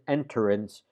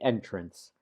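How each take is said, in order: First: It has an extra vowel between T and R. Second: It has no vowel between T and R. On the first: The speaker calls it wrong. "We don't pronounce it enterance" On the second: The speaker calls it right. "We say entrance"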